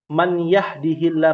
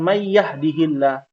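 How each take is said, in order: First: The n is said clearly before the y. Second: The n merges into the following y sound. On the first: It is ordinary speech, not Quran recitation. The speaker calls it right. "yang sebenarnya sahih itu tanpa tajwid" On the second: It applies a Quran recitation rule. The speaker calls it wrong. "bukan may yahdihillah"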